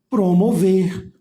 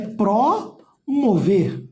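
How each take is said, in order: First: The first syllable is weak and unstressed. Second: The first syllable is strong and stressed. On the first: The prefix is part of the word. The speaker calls it right. "porque eles vão ser átonos" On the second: The prefix stands as an independent word. The speaker calls it wrong. "Ninguém vai querer chegar aqui, ó, e dizer que é pró-mover"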